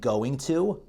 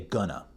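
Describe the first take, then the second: First: Both words are said fully and separately. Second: The words blend into one reduced word. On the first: "Instead of saying going to" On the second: "I'll say gonna"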